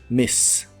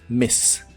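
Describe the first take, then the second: The two takes are said the same way.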